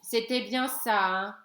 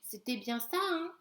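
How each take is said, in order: First: It is said in a plain reading voice. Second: It is said in Éric's timid stammering voice.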